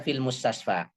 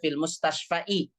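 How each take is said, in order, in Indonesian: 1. Kata terakhir diakhiri dengan bunyi a biasa. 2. Kata terakhir diakhiri dengan bunyi i tambahan. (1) "Tapi baca fil mustasfa" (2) "nggak boleh dibaca fil mustasfa'i"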